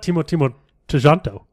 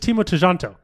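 First: The surname also begins with 'Timo'. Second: The surname does not begin with 'Timo'. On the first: The speaker calls it wrong. "Not Timo Tejanto. ... it's not two Timos" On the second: The speaker calls it right. "It's just Timo Tejanto"

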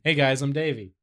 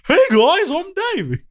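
First: The greeting is said with low, subdued energy. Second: The greeting is said with full, lively energy. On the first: "I toned it down a little bit" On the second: "That's my real voice"

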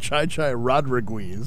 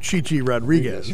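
First: The first name uses a 'chai' vowel sound. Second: The first name uses a 'chee' vowel sound. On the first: The speaker calls it wrong. "He pronounced it Chai Chai Rodriguez" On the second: The speaker calls it right. "Instead of Chichi Rodriguez"

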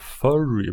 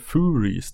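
First: It sounds like the English word 'furry'. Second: It sounds like 'Fugees' with an R. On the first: The speaker calls it wrong. "Så jag tänkte heta [name], men det blir konstigt" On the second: The speaker calls it right. "ungefär som Fugees, eller Furies då. Fugees, fast med R"

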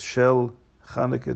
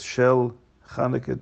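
First: The words are said as two separate words. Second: The words are said as two separate words.

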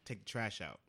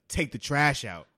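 First: It is said in a calm, mild tone. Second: It is said in a harsh, aggressive tone. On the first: It is a polite request. The speaker calls it right. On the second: It is a hostile demand that makes the listener shut down. The speaker calls it wrong.

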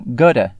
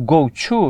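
First: The words are run together in a reduced form. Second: Both words are pronounced fully and separately.

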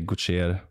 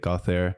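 First: The name is said the Swedish way. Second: The name is said the American way.

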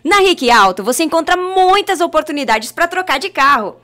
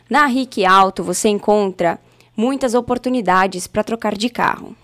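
First: It is read with lively enthusiasm. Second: It is read flatly, without enthusiasm.

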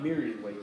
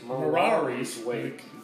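First: The first word has two syllables. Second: The first word has three syllables. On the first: The speaker calls it wrong. "It's not Miri's Wake" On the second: The speaker calls it right. "It's Mirari's Wake"

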